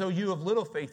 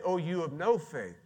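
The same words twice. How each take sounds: First: "little" stressed in a raised-pitch quote. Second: "no" punched as the contrasting word; stress on no. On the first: Preacher quotes Jesus to show what he said, "little" stressed. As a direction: lean on "little" to mark what was said. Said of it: "he says". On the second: Preacher shows what Jesus didn't say, "no" stressed. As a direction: hit "no" to mark what was not said. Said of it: "He doesn't say". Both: Shown as a demonstration.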